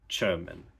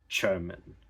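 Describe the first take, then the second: First: The word begins with a voiceless ch sound. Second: The word begins with a voiceless ch sound.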